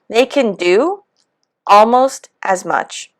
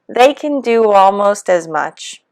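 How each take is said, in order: First: A pause separates "do" from "almost". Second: A w sound links "do" into "almost". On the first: The speaker calls it wrong. "So the pause, it even makes it sound a little more robotic" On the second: The speaker calls it right. "the natural vowel to vowel W intrusion blending"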